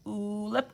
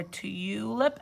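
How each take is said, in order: First: Tulip said as "t-OO-lip"; OO sound in tulip. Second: Tulip said as "t-YOO-lip"; long U in tulip. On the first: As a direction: say tulip with a plain oo after the t. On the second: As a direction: say tulip with "you" after the t. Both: Shown as a demonstration. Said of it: "You have to decide if it's".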